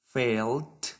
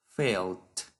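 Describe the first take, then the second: First: Felt lifted at the end; rising list tone. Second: Felt dropping low to close; falling final tone. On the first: Teacher modelling verb forms for students, rising tone. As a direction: keep felt open, rising. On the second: Teacher modelling verb forms for students, falling tone. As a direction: let felt fall and finish. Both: Shown as a demonstration. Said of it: "Follow this pattern of pronunciation".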